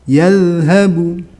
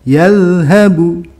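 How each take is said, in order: The two takes are said the same way.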